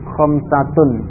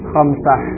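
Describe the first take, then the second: First: The word ends with a full -tun ending. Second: The word ends with a soft -ah and no vowel. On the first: This is the form used when studying the language. "kalau dibaca lengkap dengan huruf akhirnya" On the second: This is the form used in everyday conversation. "diucapkan dengan mensukun akhirnya"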